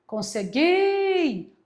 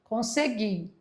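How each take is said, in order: First: Consegui with GUI drawn out long and high; stress on the last syllable. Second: Said in the usual way. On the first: Shown as a demonstration. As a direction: hold the final GUI of consegui, pitched up. (consegui com GUI bem alongado e agudo) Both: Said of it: "oxítona é a última".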